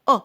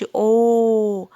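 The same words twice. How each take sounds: First: "أ" as a brief, cut-off vowel; short O sound. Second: "أو" drawn out slowly as the long name of O; long letter name. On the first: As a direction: say "أ" short, without stretching. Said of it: "لا بتنطق أ". ("أ" قصيرة مخطوفة) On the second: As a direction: stretch "أو" loud and long. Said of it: "ما بتنطقش أو". ("أو" ممدودة باسم الحرف) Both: Shown as a demonstration.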